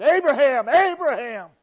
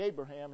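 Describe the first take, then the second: First: Loud, high call from heaven; urgent call. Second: Said in the usual way. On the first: Acted. God stopping a determined Abraham, urgent shouted call. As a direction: call the name out urgently, twice, much louder. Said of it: "he didn't just say ... he said". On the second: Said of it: "he didn't just say, "Abraham".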